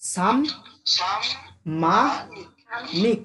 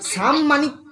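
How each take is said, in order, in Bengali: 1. শব্দটি তিনটি আলাদা ভাগে ভাগ হয়েছে। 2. শব্দটি দুই ভাগে ভাগ হয়েছে। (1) "সাম, দাঁড়িয়ে গেলাম, মা নিক" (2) "সাম মানিক বলিস না"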